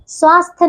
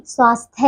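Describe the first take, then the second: First: स्वास्थ्य said as "swaasth"; wrong dropped y. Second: स्वास्थ्य said as "swaasthya"; correct final y. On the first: Teacher showing pupils the error, स्वास्थ्य without its y. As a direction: leave off the final y of स्वास्थ्य. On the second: Teacher correcting pupils, स्वास्थ्य with its y. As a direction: sound the y ending of स्वास्थ्य. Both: Shown as a demonstration. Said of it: "स्वास्थ्य नहीं".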